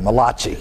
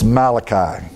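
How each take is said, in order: First: The name is said in an Italian style. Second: The name is said in a plain English style. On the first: The speaker calls it wrong. "If you're Italian" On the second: The speaker calls it right. "It's Malachi"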